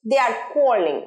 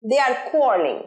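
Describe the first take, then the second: The two takes are said the same way.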